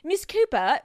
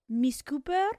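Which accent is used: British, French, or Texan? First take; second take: British; French. First: It is said in a British accent. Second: It is said in a French-sounding accent.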